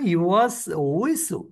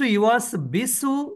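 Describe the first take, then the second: First: The second word starts with a w sound. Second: The second word starts with a b sound. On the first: The speaker calls it right. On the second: The speaker calls it wrong.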